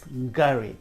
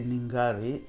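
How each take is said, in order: First: The opening N is sounded, making the G pop. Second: The opening N is barely or not sounded. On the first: The speaker calls it right. "The N makes the G pop" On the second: The speaker calls it wrong. "a lot of Westerners, they can't even pronounce it. They say"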